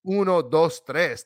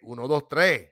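First: The final S sounds are clearly pronounced. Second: The final S sounds are dropped. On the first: This is how other Spanish speakers count. "Cubans don't say uno, dos, tres" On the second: This is how Cubans count. "They say uno, dos, tres. Where the S is at, bro?"

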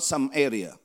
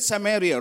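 First: The name sounds like two words, some area. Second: The name is said as one single word. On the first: The speaker calls it wrong. "Not some area" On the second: The speaker calls it right. "We read it Samaria"

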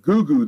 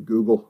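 First: The word comes out as a mangled 'goo-goo'. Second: The word is said clearly as 'Google'. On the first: The speaker calls it wrong. "it really sounds like he suggests that someone should Goo-goo that" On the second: The speaker calls it right. "actually, I mean, Google"

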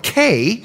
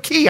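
First: The word sounds like the letter K. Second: The word sounds like the word key. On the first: The speaker calls it wrong. "It's not Green Turtle K" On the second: The speaker calls it right. "it's Green Turtle Key"

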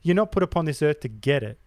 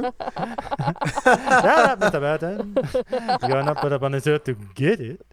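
First: It is said in a plain, normal speaking voice. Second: It is said in a put-on character voice. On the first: "You're not going to do the voice this time?" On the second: "There you go"

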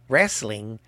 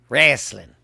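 First: It is said in a general American accent. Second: It is said in a Southern US accent. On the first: The speaker calls it wrong. "Not wrestling" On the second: The speaker calls it right. "That's how we say it down here in the South"

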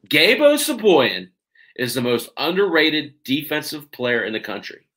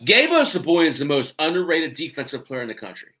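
First: The sentence is spoken slowly and deliberately. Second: The sentence is spoken at a normal, quicker pace.

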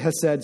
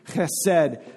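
First: The first sound is soft and plain, without rasp. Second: The first sound is a strong, harsh throat rasp. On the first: "I'll just say chesed so I don't sound super weird all the time" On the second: "You got to get really in there. So if you have food, like it's flying out of your mouth"

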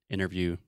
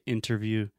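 First: It is said fast, with the t dropped. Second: It is said carefully, with a clear t.

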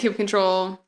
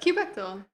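First: The ending is said as the full word 'control'. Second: The ending is not said as the word 'control'. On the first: "we can say kube control" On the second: "I prefer the alternate pronunciation kubectl"

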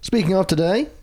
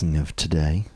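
First: It is said loudly. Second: It is said more softly.

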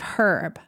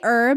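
First: It is said a non-American way. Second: It is said the American way. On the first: "instead of herb" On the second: "we say herb"

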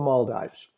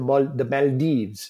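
First: The name has an ordinary English pronunciation. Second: The name has a French-style pronunciation.

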